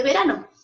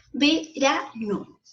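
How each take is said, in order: First: Said in the usual way. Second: 'Verano' very slowly split as ve-ra-no; syllable by syllable. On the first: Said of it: "separados en sílabas". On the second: Shown as a demonstration. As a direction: break 'Verano' into three separate syllables. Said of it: "Ahí la tenemos separados en sílabas". ('Verano' dicho muy lento, sílaba por sílaba)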